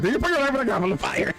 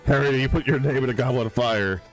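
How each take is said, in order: First: It is said aggressively. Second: It is said calmly.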